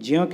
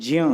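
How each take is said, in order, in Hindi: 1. इसका उच्चारण 'j' ध्वनि से होता है, 'jya'। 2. इसका उच्चारण 'j' ध्वनि से होता है, 'jya'।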